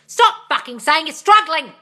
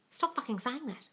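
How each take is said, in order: First: Louder, slow, furious telling-off; exasperated yell. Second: Said in the usual way. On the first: Real, not acted. Coach yelling at a struggling viewer, exasperated shout. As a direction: bark the order at the viewer.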